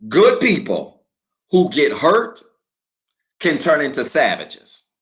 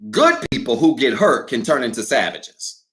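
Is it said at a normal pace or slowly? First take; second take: slowly; normal pace. First: It is said slowly. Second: It is said at a normal pace.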